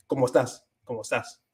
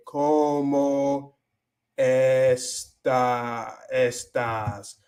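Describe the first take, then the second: First: "¿cómo estás?" joined as one word; run together. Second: Slow, separated "¿cómo estás?"; word by word. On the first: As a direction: link "cómo estás" quickly without a gap. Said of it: "casi una sola palabra". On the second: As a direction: pull "cómo" and "estás" apart, drawing them out. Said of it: "cuando se junta". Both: Shown as a demonstration.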